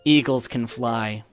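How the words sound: It is said in a put-on acting voice.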